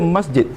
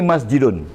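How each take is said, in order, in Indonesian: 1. Kata itu berakhir pada bunyi 'd'. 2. Kata itu diakhiri dengan bunyi 'un' tambahan. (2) "Mesti bunyi masjidun"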